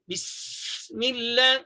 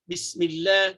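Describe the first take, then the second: First: The s sound is pronounced with excessive force. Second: The s sound is pronounced with moderate force. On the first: The speaker calls it wrong. "itu melampau. Ha, itu kuat" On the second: The speaker calls it right.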